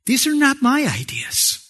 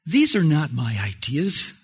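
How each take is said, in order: First: Higher-pitched, insistent "These are not my ideas"; preacher's emphatic restatement, pitched up on "not my ideas"; emphatic repetition. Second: Said in the usual way. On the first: Real, not acted. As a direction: drive home "not my ideas" with raised pitch. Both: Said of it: "I like to emphasize this kind of repeatedly".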